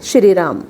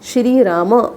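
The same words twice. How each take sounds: First: The phrase ends on the consonant 'm'. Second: The phrase ends with a short 'a' vowel. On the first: This is the Hindi pronunciation. "Hindi में बोलना हो तो हम बोलते हैं" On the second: This is the Sanskrit pronunciation. "Sanskrit में शब्द बोलेंगे"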